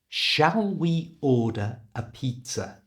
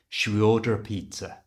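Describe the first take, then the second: First: Every word is said fully and separately. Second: The words are squashed together and reduced. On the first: "I didn't pronounce it quite like that" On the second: "I pronounced it like a native English speaker would"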